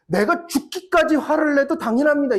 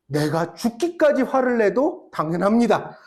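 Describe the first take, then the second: First: Jonah defiant. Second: Jonah's answer laughing. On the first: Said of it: "이렇게 요나가 진짜 대답했다니까요". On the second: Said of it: "요나의 대답이 뭐였는 줄 알아요?". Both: Retold or imitated.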